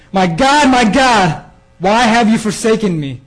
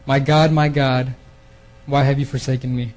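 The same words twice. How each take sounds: First: High, loud, anguished cry, much higher; anguished scream. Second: Said in the usual way. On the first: Retold or imitated. Jesus on the cross crying out to God, anguished scream. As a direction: cry out to heaven in agony at full voice. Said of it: "and he's screaming". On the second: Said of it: "screaming out at the ninth hour with a loud voice".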